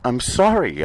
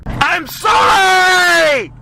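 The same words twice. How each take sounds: First: Said in the usual way. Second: Very high, loud, drawn-out sobbing scream; screaming outburst. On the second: Acted. Comedian apologizing to the audience in a screaming outburst. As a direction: wail the apology at the top of your lungs. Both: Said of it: "Sorry for that last outburst".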